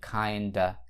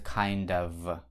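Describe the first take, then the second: First: The f sound is dropped, ending in a vowel. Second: The f sound at the end is pronounced. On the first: "тогда f убирается и kinda" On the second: "произносится kind of и соединяется с, с другим словом"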